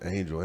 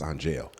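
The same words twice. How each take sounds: First: The name is said the usual way, ending 'jul'. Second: The name ends with a 'jail' sound. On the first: The usual form of the name. ""Let's name her Angel."" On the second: A changed form of the name. "let's change the pronunciation"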